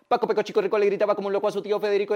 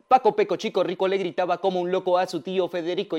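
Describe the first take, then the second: First: It is said extremely fast, without pauses. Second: It is said at a faster pace.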